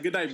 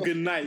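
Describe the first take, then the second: First: It is said low and hard, in a tough tone. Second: It is said softly, in a gentle tone. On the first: The speaker calls it right. "You gotta push it down like" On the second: The speaker calls it wrong. "You can't say, oh, good night"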